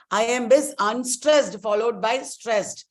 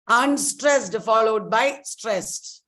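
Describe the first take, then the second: First: Said in the usual way. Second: Slow, deliberate stressed definition; slow teaching emphasis. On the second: Shown as a demonstration. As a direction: spell out the rule slowly for the class.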